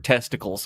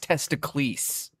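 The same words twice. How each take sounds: First: It is said the ordinary English way, ending 'kulz'. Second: It is said the Greek way, ending 'kleez'.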